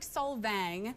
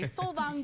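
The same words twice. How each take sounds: First: The name is pronounced as English spelling suggests. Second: The name is pronounced with a Norwegian pronunciation. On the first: "It's spelled like Solvang" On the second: "I'm contractually obligated to say Solvang because I work for Norwegians"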